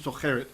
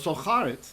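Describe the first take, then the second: First: It has the ordinary vowel of the plain form. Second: It has the changed vowel of the pausal form. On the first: "would actually be socheret" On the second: "It's in pause right here, so it's getting special accent"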